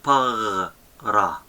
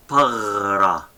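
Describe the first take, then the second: First: "Pagra" as throaty "pagh", pause, "ra"; syllable-by-syllable pronunciation demo; soft Gamal, split. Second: "pagra" with a rolled throaty "gh" for the g; teacher's pronunciation demo; soft Gamal example. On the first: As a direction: break "Pagra" after the gargled g. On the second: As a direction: say "pagra" whole, gargling the middle. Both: Shown as a demonstration. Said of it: "For example".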